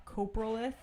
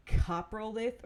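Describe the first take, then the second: First: Coprolith said "KOH-pruh-lith"; long "cope" sound at the start of Coprolith; long-o pronunciation. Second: Coprolith said "KAH-pruh-lith"; short-o pronunciation. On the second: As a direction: open "cop" sound at the start of Coprolith. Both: Shown as a demonstration. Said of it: "I don't know how to say the actual name".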